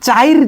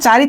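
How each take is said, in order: First: The i vowel comes before the r sound. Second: The i vowel comes after the r sound. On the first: "এই রস্বইটা কিন্তু minus হয় নাই, বরং এটা রয়ের আগে উচ্চারিত হচ্ছে" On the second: "চারি একটা উচ্চারণ ছিল"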